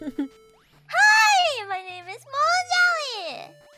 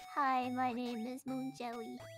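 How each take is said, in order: First: It is said with more energy. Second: It is said with plain, low energy.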